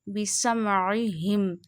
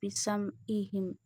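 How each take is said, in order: First: The middle consonant is a deep throat sound. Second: The middle consonant is a light glottal catch. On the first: The speaker calls it right. "This is ain from our middle part" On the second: The speaker calls it wrong. "Don't read it like this"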